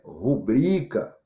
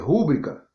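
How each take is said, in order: First: The stress is on the second syllable. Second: The stress is on the first syllable. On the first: The speaker calls it right. "mas o correto é rubrica" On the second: The speaker calls it wrong. "As pessoas falam aqui"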